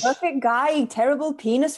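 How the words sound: It is said in a put-on Welsh accent. "I'm going to say it in a wheels accent"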